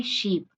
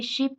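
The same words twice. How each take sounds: First: शीप with the ee vowel held long; long ee sound. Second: शिप with a short, clipped i vowel; short i sound. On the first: Teacher contrasting the long vowel in शीप. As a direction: stretch the ee in शीप. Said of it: "और एक होता है long sound". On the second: Teacher showing the short vowel in शिप. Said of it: "एक होता है short sound". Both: Shown as a demonstration.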